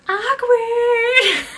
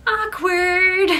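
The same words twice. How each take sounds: First: High, loud laughing shout; mimicking Bree's awkward. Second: High, loud sing-song blurt; loud blurted awkward. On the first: Friends mimicking Bree's blurt, laughing high shout. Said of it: "all three of us just mimicking Bree". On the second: Retold or imitated. Friend blurting at the awkward table, loud and high. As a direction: blurt it out to break the tension. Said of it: "all of a sudden out loud goes".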